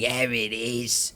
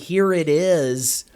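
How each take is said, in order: First: It is said in a British accent. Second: It is said in a plain accent.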